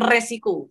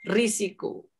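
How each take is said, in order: First: The first vowel is pronounced as e. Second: The first vowel is pronounced as i. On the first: The speaker calls it wrong. "ketika kita mengatakan resiko" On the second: The speaker calls it right. "yang betul adalah risiko"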